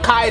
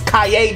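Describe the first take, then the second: First: The E in the middle is not pronounced. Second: The E in the middle is pronounced. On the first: The speaker calls it wrong. "I think I was pronouncing it wrong. Not Kaede" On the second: The speaker calls it right. "it's Kaede because of the E in the middle"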